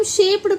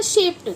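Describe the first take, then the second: First: "शेप्ड" with a voiced d at the end; common d ending. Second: "शेप्ड" said as "shapet"; correct t ending. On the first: Teacher shows how we misread, शेप्ड with d. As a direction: read "शेप्ड" as spelt, "shape-d". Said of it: "ये हम शेप्ड पढ़ते हैं". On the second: Teacher corrects the reading, शेप्ड with t ending. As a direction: end "शेप्ड" on t, not d. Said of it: "जबकि ये होता है शेप्ड". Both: Shown as a demonstration.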